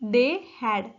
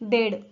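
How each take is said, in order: First: They had is said as two full words. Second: They had is squeezed into one short syllable.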